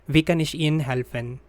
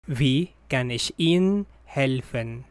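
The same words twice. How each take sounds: First: Wie kann ich Ihnen helfen said quickly, stress on Wie; natural speed. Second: Said in the usual way. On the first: Shown as a demonstration. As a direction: rattle it off like a native. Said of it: "phrase said at natural speed first". (quick native-speed read) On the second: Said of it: "repeat for learners".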